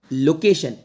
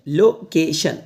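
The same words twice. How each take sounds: First: Said in the usual way. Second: location split as "lo - ke - shan"; broken into syllables. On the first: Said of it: "पढ़ना सिखाऊंगा". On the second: Shown as a demonstration. Teacher showing learners how to read location, syllable by syllable. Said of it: "ऐसे तोड़ के पढ़".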